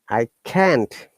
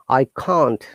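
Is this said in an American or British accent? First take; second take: American; British. First: It is said with an American accent. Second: It is said with a British accent. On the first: "American English" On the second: "British English"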